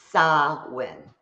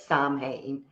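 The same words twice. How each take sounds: First: Samhain said carefully as SAH-win; correct Gaelic pronunciation. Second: Samhain said as SAHM-hayn; spelling pronunciation. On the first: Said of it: "is how it's pronounced". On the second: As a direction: sound the M and H, "SAHM-hain". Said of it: "it looks like it says". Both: Shown as a demonstration.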